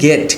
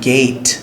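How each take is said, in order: First: The word has a Bengali-style pronunciation. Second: The word has an English-style pronunciation. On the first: "আমরা বাংলায় বলি গেট" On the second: "কিন্তু ইংলিশে কি?"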